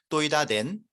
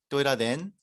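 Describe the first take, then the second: First: It is said strongly, pressing down on the verb. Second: It is said softly, without pressing force. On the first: "이 번이 뭔가 좀 힘이 느껴지지 않나요? 그냥 발음이 강해요. 정확하게 낸 하면서 눌러주죠" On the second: "일 번"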